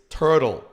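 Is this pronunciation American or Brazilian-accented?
American. It is said with an American English accent. The speaker calls it right. "it's turtle, right?"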